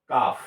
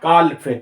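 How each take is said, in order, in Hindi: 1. F से पहले L की आवाज़ चुप रहती है। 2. L की आवाज़ F से पहले बोली जाती है। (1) "एल का उच्चारण नहीं करते हैं तो इसका सही प्रोनाउंस होगा काफ" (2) "अगर आप एल को लेते हैं तो बोलते हैं क्या? काल्फ"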